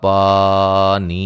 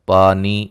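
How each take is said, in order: First: The vowel is stretched out unnaturally long. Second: The vowel is held at normal length. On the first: The speaker calls it wrong. "कोई भी इस तरह इसको नहीं पढ़ता" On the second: The speaker calls it right. "ये जितना इसको हमने लंबा करना है"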